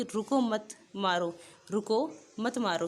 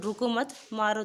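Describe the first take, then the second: First: "रुको" said alone and falling, a break, then "मत मारो"; pause after "रुको". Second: "रुको मत" said as one unit, then a break before "मारो"; pause after "मत". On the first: Teacher reads the sentence meaning "stop, don't hit", breaking after "रुको". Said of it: "रुको मारो मत". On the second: Teacher reads the sentence meaning "don't stop, keep hitting", breaking after "मत". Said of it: "ये होगा कि मतलब "रुको मत, मारते जाओ". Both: Shown as a demonstration.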